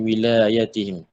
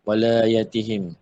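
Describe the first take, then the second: First: The first vowel is a close 'i' sound. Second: The first vowel is an open 'a' sound. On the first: "membaca kasrah pada wilayatihim" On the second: "membaca Fatihah pada walayatihim"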